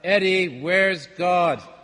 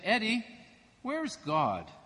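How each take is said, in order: First: It is said loudest of all. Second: It is said at a normal, quieter level.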